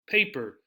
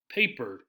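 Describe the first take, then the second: First: The stress is on the first syllable. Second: The stress is on the first syllable.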